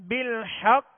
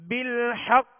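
Both takes have the same delivery.

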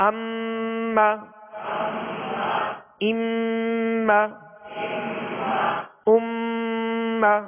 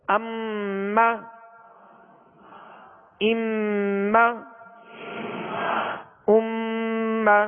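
Both takes have the same delivery.

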